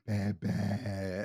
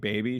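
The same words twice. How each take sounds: First: The word is said with exaggerated, over-careful articulation. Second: The word is said in a normal, relaxed way. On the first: "She like over enunciates words randomly" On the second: "instead of her saying baby"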